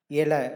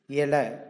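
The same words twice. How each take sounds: Both takes have the same delivery.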